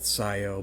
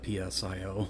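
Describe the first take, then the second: First: The initial P is silent. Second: The initial P is sounded. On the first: This is how the makers say the name. "I know they pronounce it S I O" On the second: This is the speaker's own preferred way. "I'm going to call it P S I O"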